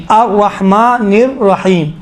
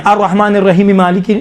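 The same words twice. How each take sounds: First: Slow "الرحمن الرحیم", closing on a still M; stop at verse end. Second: "الرحمن الرحیم مالک" joined without a stop, "rahimi-maliki"; run together. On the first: Teacher telling students to pause, slow with a full stop. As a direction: draw out "الرحیم" and halt, final vowel dropped. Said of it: "رکتے جائیں". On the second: Teacher showing students what not to do, running verses on. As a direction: link "الرحیم" straight into "Malik" by its final vowel. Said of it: "نہیں، الرحمن الرحیم". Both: Shown as a demonstration.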